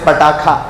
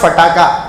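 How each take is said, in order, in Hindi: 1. शब्द "p" की आवाज़ से शुरू होता है। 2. शब्द "f" की आवाज़ से शुरू होता है। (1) "इट इज पटाखा" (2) "इट इज नॉट फटाका"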